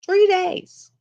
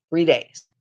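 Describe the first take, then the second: First: Much higher, louder disbelieving Three days; amazed exclamation. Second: Said in the usual way. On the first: Shown as a demonstration.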